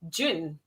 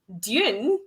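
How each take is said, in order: First: It sounds exactly like the month June. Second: It does not sound like the month June. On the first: "to sound exactly the same as the month" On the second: "and not like"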